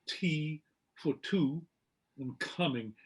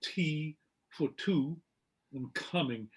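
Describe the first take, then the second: First: The T and K have a puff of breath. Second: The T and K have a puff of breath.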